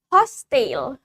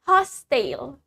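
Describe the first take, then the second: First: The word is said in a British accent. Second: The same.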